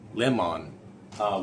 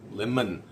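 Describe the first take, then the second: First: The second vowel is a full, clear vowel. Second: The second vowel is reduced to a schwa. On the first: This is how speakers without schwas would say it. "would be how they would actually pronounce it, not the way we do" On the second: This is the usual English way. "which is an en"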